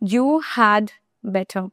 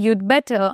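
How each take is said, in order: First: Each word is said separately and fully. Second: You and had merge into one syllable. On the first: "এটাকে আমি ভেঙে বললাম" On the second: "contracted ফর্মের উচ্চারণটা করি তাহলে স্টিল ইউড হবে"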